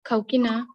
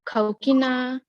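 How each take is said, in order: First: The final syllable is kept short. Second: The final syllable is drawn out long. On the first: "in the Borfake style" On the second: "first style is the Namfake speech style"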